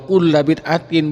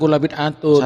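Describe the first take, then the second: First: The last word ends with an 'in' sound. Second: The last word ends with an 'un' sound. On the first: The word is a possessed noun in the genitive case. The speaker calls it right. "Jadi yang benar" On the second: The word is treated as a predicate in the nominative. The speaker calls it wrong.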